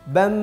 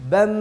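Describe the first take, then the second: Both takes have the same delivery.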